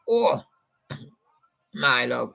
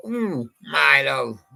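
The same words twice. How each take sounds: First: John's way. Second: A slow, drawn-out "Ooh, my love", lightly imitated; Paul's way. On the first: Retold or imitated. DJ imitating John singing to his listeners, a light croon. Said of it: "John went". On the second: DJ showing how Paul sang it, a slow mild croon. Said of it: "And Paul went".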